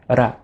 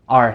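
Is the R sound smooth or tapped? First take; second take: tapped; smooth. First: The R is tapped against the mouth's roof. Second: The R is smooth, with no tongue tap. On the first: The speaker calls it wrong. "like the Spanish R" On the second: The speaker calls it right. "in English, we use this R"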